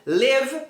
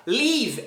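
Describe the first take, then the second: First: "Live" close to lev; short lax vowel in "Live"; correct short vowel. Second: "Leave" with a long EE; stretched I sound in "Leave"; long vowel. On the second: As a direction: say "Leave" as leev. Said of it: "é essa outra palavra". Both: Shown as a demonstration.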